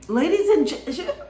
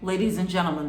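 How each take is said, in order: First: The voice sounds shaky and cracking. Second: The voice sounds steady and confident. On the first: The speaker feels nervous and unsure. The speaker calls it wrong. "shaky voice ... their voice cracking" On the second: The speaker feels sure of themselves. The speaker calls it right. "like very confident"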